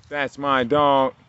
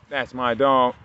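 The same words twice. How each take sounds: First: Louder, higher and slowly drawn out; slow proud praise. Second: Loud praise, normal pace; loud dog praise. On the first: Owner praising his dog, slow and drawn out. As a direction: stretch every word like a proud owner. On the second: Owner praising his dog, loud and quick. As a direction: call it out proudly to the dog. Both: Real, not acted.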